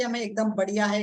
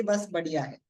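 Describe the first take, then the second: First: Understated show of confidence; a touch of enthusiasm, demonstrated; mildly upbeat answer. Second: Lower, understated "just fine" reply; casual imitation of a so-so reply; lukewarm stock answer. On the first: Shown as a demonstration. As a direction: model a positive reply, lightly emphatic. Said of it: "वो लोग ये नहीं बोलते कि". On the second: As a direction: imitate a routine, unenthusiastic answer. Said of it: "वो लोग ये नहीं बोलते".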